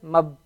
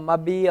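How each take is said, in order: First: No vowel follows the b. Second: An i vowel follows the b. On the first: The speaker calls it right. "Just mab" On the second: The speaker calls it wrong. "You can't say"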